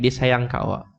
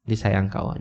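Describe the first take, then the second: First: Said in the usual way. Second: "Dia sayang kat awak" hushed and tender; softer tender repeat. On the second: Retold or imitated. Repeats it softly to comfort her.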